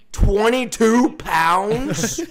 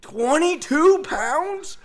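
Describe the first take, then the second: First: "Twenty-two pounds?" drawn out slowly, higher and louder; stunned disbelief. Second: "Twenty-two pounds?" much higher, very slow, rising; outraged disbelief. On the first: Player repeating the coach's target to himself, slow and stunned. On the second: Player telling friends the coach's target, high squeal of disbelief. Repeating it, even more stunned. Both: Retold or imitated.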